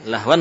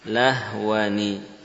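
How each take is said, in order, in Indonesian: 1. Kata itu berakhir dengan bunyi n saja. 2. Kata itu berakhir dengan n plus vokal i. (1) "bunyi nun sukun" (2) "Bunyi nun kasrah"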